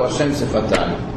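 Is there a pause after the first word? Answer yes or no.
no. The two words run together without a pause. The lips themselves seem to be called God. The speaker calls it wrong. "pode dar a impressão de que quem é meu Hashem é os meus lábios"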